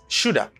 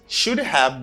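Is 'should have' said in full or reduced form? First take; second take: reduced; full. First: The words blend into a reduced 'shoulda'. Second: Both words are said fully and separately. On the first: "becomes shoulda" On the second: "should have becomes shoulda"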